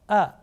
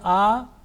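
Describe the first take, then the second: First: The vowel is kept short. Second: The vowel is held long. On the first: The speaker calls it right. "This is only for one second" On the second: The speaker calls it wrong. "If I say a, it will be wrong"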